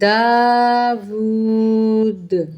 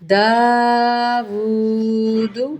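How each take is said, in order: First: It ends on a bouncing, echoing d sound. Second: It ends with a short vowel u after d. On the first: The reading stops on this word. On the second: The reading continues without stopping.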